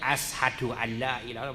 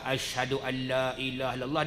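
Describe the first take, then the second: First: The first word lacks the sh sound. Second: The first word has a clear sh sound. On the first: This is how a new convert says it. The speaker calls it wrong. "Tak bunyi shin juga kan" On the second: This is the form that is taught. The speaker calls it right. "kita sendiri pun orang ajar"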